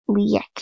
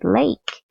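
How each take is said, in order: First: It is said in a Creole accent. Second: It is said in a Standard English accent.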